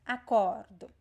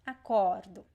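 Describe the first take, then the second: No difference in how they are said.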